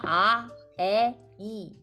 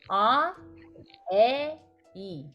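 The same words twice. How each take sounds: First: The lips spread sideways for the vowels. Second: Only the jaw lowers for the vowels. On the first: The speaker calls it wrong. "이렇게 발음하는 줄 알았는데" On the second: The speaker calls it right. "그게 아니고 아, 에, 이 그래요. 그러니까 턱만 내리는 거야"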